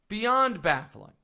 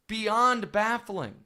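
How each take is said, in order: The two takes are said the same way.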